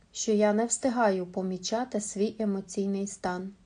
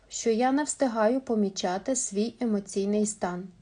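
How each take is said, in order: Both takes have the same delivery.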